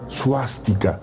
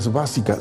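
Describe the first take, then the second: First: The word begins with a 'su' sound. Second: The word begins with an 'es' sound. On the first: The speaker calls it right. "se llama suástica" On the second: The speaker calls it wrong. "realmente no se llama esvástica"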